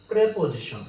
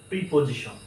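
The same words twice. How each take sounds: First: "প্রিপোজিশন" opening high on preh; "প্রিপোজিশন" with e in the first syllable; correct pronunciation. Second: "প্রিপোজিশন" starting with pree; "প্রিপোজিশন" with i in the first syllable; mistaken pronunciation. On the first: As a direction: say "প্রিপোজিশন" as preh-po-ji-shon, louder on preh. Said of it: "এখানে প্রে হবে". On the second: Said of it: "আমরা ভুলভাবে উচ্চারণ করতে দেখি". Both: Shown as a demonstration.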